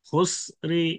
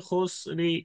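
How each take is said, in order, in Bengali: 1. র-এর পরে হালকা ছোট i শোনা যায়। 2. র-এর পরে হালকা ছোট i শোনা যায়।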